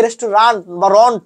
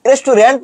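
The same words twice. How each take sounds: First: "রেস্টুরেন্ট" slowly as res-tu-RANT, then "রন্ট"; slow "রেস্টুরেন্ট" with open a, then rounded "রন্ট"; corrected RANT ending. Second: "রেস্টুরেন্ট" as res-tu-RENT, with an e; "রেস্টুরেন্ট" the common way, res-tu-rent; rejected RENT ending. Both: Shown as a demonstration. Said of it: "রেস্টুরেন্ট না রে ভাই".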